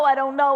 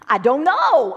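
First: It is said in a flat, monotonous way. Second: It is said with varied, lively intonation. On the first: The speaker is giving the same dull answer again. The speaker calls it wrong. "I didn't want to say it like that because I didn't want to be boring" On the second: The speaker is trying to vary the answer. The speaker calls it right. "So I said it like this"

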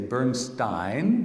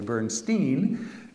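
First: The name is said the German or Austrian way. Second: The name is said the Ukrainian way. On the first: This is how the name is said in Austria and Germany. "In Austria and in Germany, we would say" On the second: This is how the name is said in Ukraine. "but in Ukraine, where his parents came from, we would say"

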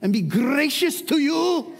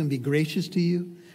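First: It is said in a Scottish accent. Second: It is said in the speaker's plain accent.

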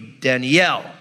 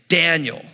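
First: The stress is on the last syllable. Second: The stress is on the first syllable. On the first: This is the Hebrew way of saying the name. "In Hebrew, it would be Danielle" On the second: This is the usual English way of saying the name. "the accent's on the first symbol. Like my name, you say Daniel"

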